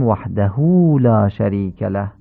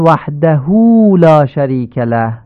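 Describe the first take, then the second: First: «وحده» with the hu drawn long into «لا»; correct lengthening. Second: «وحده» with the final hu cut short; the lengthened hu left unlengthened; wrong clipped vowel. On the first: Teacher giving the right «وحده», hu lengthened. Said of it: "باید بگیم". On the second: Teacher showing the clipped mistake in «وحده». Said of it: "این حرکت هو باید اشباع بشه". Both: Shown as a demonstration.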